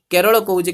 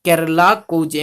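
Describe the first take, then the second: First: "केरल" with rounded Odia vowels and open ending; Odia pronunciation. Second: "केरला" with a plain l and long final aa; Hindi pronunciation. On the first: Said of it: "Odia में". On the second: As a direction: say "केरला" the Hindi way, as "ker-laa". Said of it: "किंतु हिंदी रे". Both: Shown as a demonstration.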